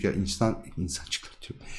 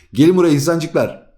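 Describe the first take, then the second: First: Breathy whisper, much softer, calling the little humans in. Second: Higher and louder, calling everyone over; playful loud call. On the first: Teacher whispers to students to gather round. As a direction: hush it like a secret summons. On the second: Teacher loudly calls the students to come over. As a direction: shout it like summoning a crowd. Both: Pretend.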